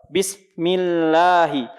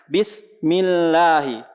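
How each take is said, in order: The two takes are said the same way.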